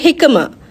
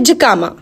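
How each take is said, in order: First: It is said with an American pronunciation. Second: It is said with a British pronunciation.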